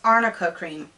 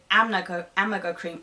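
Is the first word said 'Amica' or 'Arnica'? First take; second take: arnica; amica. First: The first word is said as 'Arnica', with an 'r' and an 'n' sound. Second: The first word is said as 'Amica', with an 'm' sound and no 'r'. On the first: The speaker calls it right. "you can't even pronounce arnica cream" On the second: The speaker calls it wrong. "that's not how you say it"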